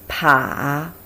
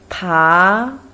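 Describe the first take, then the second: First: It is said with the third tone. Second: It is said with the second tone. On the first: "Third tone" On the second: "Second tone"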